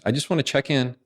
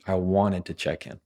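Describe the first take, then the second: First: Higher, tentative check-in; a demo of hedging, pitched up; hesitant. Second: Plain, even statement without hedging; assertive. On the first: Coach showing a weak email line, hesitant. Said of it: "it sounds hesitant". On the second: Coach showing the email line without "just", assertive. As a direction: state it directly, settled at the end. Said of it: "Which one sounds more assertive?". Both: Shown as a demonstration.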